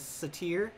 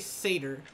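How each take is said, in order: First: The stress is on the second syllable. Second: The stress is on the first syllable. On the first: "with the stress on the second syllable instead of the first" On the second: "I heard somebody say satyr one time"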